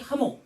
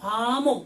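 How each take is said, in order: First: The first syllable is said short. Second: The first syllable is drawn out long. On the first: It means the peace offering sense. "짧게 화목 이렇게 해야 되고" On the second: It means harmony between people. "화목 이렇게 길게 발음해야 돼요"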